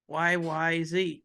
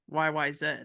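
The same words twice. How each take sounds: First: It is said the American way, ending 'zee'. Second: It is said the Canadian way, ending 'zed'.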